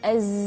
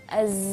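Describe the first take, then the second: The two takes are said the same way.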